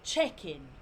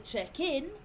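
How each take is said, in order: First: It is pronounced as the noun form. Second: It is pronounced as the verb form. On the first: It names the place or process of registering. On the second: It names the action of registering.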